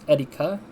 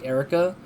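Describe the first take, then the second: First: The name is said with a Japanese R. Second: The name is said with an English R.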